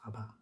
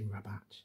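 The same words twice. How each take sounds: First: The name is pronounced the French way. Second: The name is pronounced the English way. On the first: "I just used the, the French pronunciation Rabat" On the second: "say Rabat in the English way"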